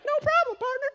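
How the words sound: It is said in a small child's voice.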